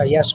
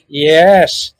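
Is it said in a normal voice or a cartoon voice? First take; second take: normal voice; cartoon voice. First: It is said in a plain, normal voice. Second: It is said as an impression of the Brain.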